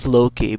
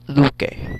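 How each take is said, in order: First: The name is said the familiar English way. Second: The name is said with Icelandic sounds. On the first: The speaker calls it wrong. "and not Loki" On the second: The speaker calls it right. "but Luke"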